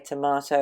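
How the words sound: It is said the Australian and British way. "we say tomato"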